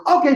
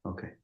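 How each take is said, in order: First: High, sudden loud "okay"; loud interjection. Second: Small, soft "okay"; subdued okay. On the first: Husband breaking the silence after playback, loud interjection. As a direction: blurt it out, pitched up and loud. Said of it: "And Bobby goes". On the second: Husband told to shut up by his wife, subdued. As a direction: say it low-key into the silence. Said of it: "It's just quiet". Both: Retold or imitated.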